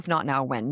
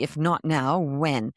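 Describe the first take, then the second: First: It is said casually, as a throwaway line. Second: It is said earnestly, as a real question.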